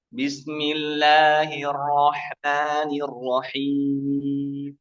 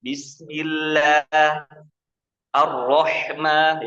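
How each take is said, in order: First: Bismillahirrahmanirrahim drawn out very slowly through the nose; wrong nasal reading. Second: Bismillah and Ar-Rahman slow and clean, no nasal sound; clean correct reading. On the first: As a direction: show the mistake slowly and nasally. (Bismillahirrahmanirrahim pelan dan sengau, contoh salah) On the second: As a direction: recite slowly and clean. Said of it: "Yang benar bersih". (Bismillah Ar-Rahman pelan dan bersih) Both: Shown as a demonstration.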